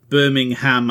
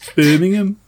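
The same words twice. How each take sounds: First: It is said in an American accent. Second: It is said in a British accent. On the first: "if Americans were to pronounce it, like they pronounce Birmingham, Alabama" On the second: "as opposed to Birmingham"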